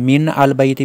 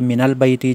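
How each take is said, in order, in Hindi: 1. आर्टिकल पहले शब्द से अलग बोला जाता है। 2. आर्टिकल पहले शब्द से जुड़ा हुआ बोला जाता है। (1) "मिन अल बैती भी नहीं है" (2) "बल्कि मिनल बैती"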